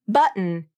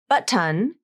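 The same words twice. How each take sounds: First: The T is stopped and the schwa is dropped. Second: The T is released and the schwa is kept. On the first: The speaker calls it right. "Button is the more natural pronunciation" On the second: The speaker calls it wrong. "with the true T and the schwa vowel"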